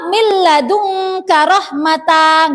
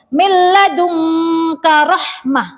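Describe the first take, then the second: First: The final word ends in a long ta. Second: The final word ends in a silent h. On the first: The speaker calls it wrong. "tidak boleh dibaca" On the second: The speaker calls it right. "Harus dibaca hak sukun"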